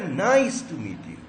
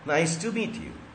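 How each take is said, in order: First: It rises with stress on nice. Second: It is said with a flat falling tune.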